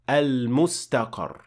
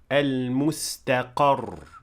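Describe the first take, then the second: First: The end of the word is unstressed. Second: The end of the word is stressed. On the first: The speaker calls it wrong. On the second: The speaker calls it right. "we say"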